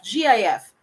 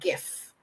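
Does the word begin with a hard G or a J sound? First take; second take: J sound; hard G. First: It begins with a soft J sound. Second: It begins with a hard G sound. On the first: The speaker calls it wrong. "Filipinos keep on saying GIF" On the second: The speaker calls it right. "it's simply GIF. It's like you're giving a gift without a T"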